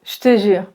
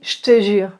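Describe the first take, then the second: Both takes have the same delivery.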